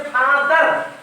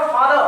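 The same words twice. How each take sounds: First: फादर said with the final r clearly sounded; फादर with a full r at the end; r pronounced. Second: फादर, non-rhotic, the r left silent; no r sound. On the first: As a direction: say फादर as fa-dar, rolling the r at the end. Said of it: "एकदम रॉ पे क्या कर देते हैं?". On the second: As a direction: say फादर as faa-dhuh, dropping the r. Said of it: "इसका उच्चारण सही क्या हो जाएगा?". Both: Shown as a demonstration.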